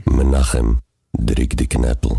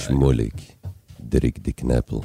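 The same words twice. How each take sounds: First: Louder, lower Yiddish-accented call of דריק די קנפל; a full-voice Yiddish-accented promo for listeners. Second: Lower, softer Yiddish-accented run-through of דריק די קנפל; a soft Yiddish-accented try for the host; quieter Yiddish ad voice. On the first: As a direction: belt the jingle line in a Yiddish accent. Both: Shown as a demonstration. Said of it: "תעשה את זה רגע".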